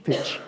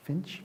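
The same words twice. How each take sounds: First: "Fitch." no n, said firmly; corrected name. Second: "Finch?" with an n, unsure and quiet rising; mistaken name. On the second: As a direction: try "Finch?" questioning. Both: Shown as a demonstration.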